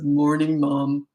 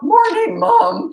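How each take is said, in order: First: The voice is steady and deep. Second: The voice cracks in a boyish pitch. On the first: The speaker has become a man. "He like turned into a man overnight" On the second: The speaker is still a boy. "with the voice cracking"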